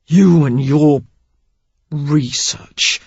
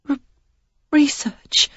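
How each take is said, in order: First: Man sneering at research; scornful. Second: Breathless stammered whisper, high; frightened whisper, stammering on the first syllable. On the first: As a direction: spit out research as if obscene. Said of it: "as if it were obscene". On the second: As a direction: she can barely get the word out. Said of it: "the one stammering word". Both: Acted.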